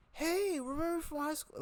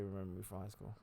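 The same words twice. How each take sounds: First: Very high, bright friendly "Hey, remember me"; sing-song high friendly reunion voice; cheery greeting. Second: Mumbled line. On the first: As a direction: greet an old classmate sweetly, much higher. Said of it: "that's what I'm hoping". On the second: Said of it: "I think this is how it's gonna sound". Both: Shown as a demonstration.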